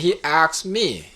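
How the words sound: The verb is said like 'axed', with 'ks'. "흑인들은요, ask를요, ax로 얘기하는 경향이 있거든요"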